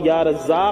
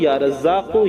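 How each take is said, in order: First: The name ends without a final vowel. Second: The name ends with a short 'u' vowel. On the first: The reciter stops after the name. "जहाँ ठहरेंगे वहाँ" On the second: The reciter goes on without stopping. "जहाँ मिलाकर पढ़ेंगे लगातार वहाँ"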